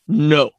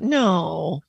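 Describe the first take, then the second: First: It is short, sharp and deep. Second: It is softer and higher.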